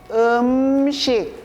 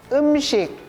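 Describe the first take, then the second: First: The word is said slowly. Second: The word is said fast.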